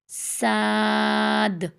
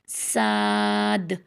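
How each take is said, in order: First: The vowel is open and wide, like 'aa'. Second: The same.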